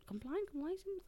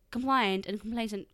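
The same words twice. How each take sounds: First: "Compliant, complacent" high and soft, as a question. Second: Said in the usual way. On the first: Real, not acted. Checking own word choice, "Compliant, complacent" softly questioning. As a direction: query "Compliant, complacent" under your breath, pitched up.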